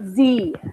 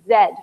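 First: The letter is said as zee. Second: The letter is said as zed.

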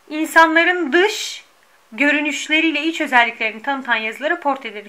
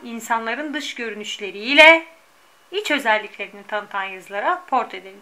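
First: Pauses split words that belong to one phrase. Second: Pauses fall only between complete phrases. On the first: The speaker calls it wrong. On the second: The speaker calls it right.

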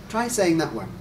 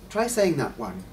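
Both takes have the same delivery.

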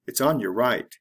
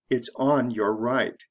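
First: The words run together and 'your' is reduced. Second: Each word is said separately and 'your' is said in full. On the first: "The fast way" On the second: "The slow way"

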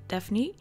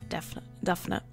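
First: The name is pronounced the English way. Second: The name is pronounced the Dutch way. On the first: "as she would pronounce it in English" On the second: "as she is Dutch, so we're calling her Daphne"

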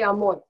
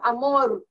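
First: The R sound is soft and anglicized. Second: The R sound is a Spanish tapped R. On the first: The speaker calls it wrong. "I had issues with R's because, sometimes I don't know how to say R" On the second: The speaker calls it right. "no, it's amor"

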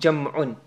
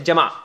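First: The word ends in an 'un' sound. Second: The word ends in an 'a' sound. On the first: The speaker calls it right. "but it's really jam'un. The pronunciation is what?" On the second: The speaker calls it wrong. "Some people say Jama'"

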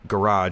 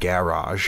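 First: It is said with an American pronunciation. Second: It is said with a British pronunciation.

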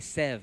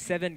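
First: The word is cut to one short syllable. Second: The word is said with two full syllables. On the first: The speaker calls it right. "we say sev" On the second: The speaker calls it wrong. "I don't say seven because seven got two syllables in it"

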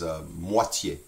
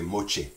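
First: The middle consonant is a plain t sound. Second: The middle consonant is a ch sound. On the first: "One is moitié" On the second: "In Louisiana French, we say moche ... We pronounce that TI in the middle as a CH"

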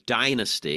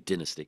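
First: It is said with an American accent. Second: It is said with a British accent.

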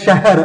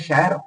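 First: The h sound is fully pronounced. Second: The h is heard only as tone. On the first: "ਲਿਖਿਆ ਜਾਂਦਾ ਸ਼ਹਿਰ" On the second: "ਆਪਾਂ ਬੋਲਦੇ ਹਾਂ ਸ਼ਹਿਰ"

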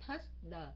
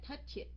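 First: The word ends in a plain d sound. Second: The word ends in an extra id syllable. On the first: "chữ ly" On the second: "chữ it"

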